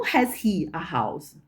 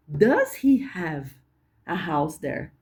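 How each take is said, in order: First: Slow "Has he a house?" with "has" stressed; old-style question. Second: Slow "Does he have a house there?"; modern question. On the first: Teacher contrasts the old form, "has" stressed. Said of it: "Mas não". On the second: Teacher gives the modern version slowly. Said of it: "Hoje a gente diria". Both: Shown as a demonstration.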